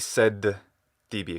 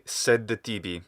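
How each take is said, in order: First: A voiced D runs straight into the T. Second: A small vowel is inserted between the two words. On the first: "it could not be sed tibi. It could not be voiced" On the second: "little schwa again"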